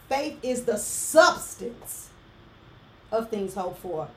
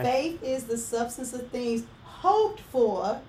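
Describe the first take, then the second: First: The stress falls on the word substance. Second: The stress falls on the words hoped for. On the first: Faith itself is something real and acted on. "Change the emphasis" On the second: The focus is on what is hoped for. "I'm going to say the scripture again with the emphasis"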